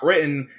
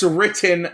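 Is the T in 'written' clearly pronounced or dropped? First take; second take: dropped; clear. First: The T in the middle is dropped or swallowed. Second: The T in the middle is clearly pronounced. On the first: The speaker calls it wrong. "not written. You're not from Utah in this place" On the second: The speaker calls it right. "The word is written"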